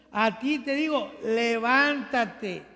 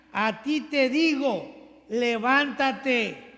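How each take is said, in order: The two takes are said the same way.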